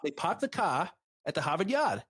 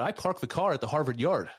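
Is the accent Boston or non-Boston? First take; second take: Boston; non-Boston. First: It is said in a Boston accent. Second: It is said in a non-Boston accent.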